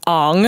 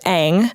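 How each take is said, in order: First: The name uses an aw vowel. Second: The name uses a plain, non-aw vowel. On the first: This is how the film pronounces the name. "or in the movie, Ong" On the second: This is the usual pronunciation of the name. "named Aang"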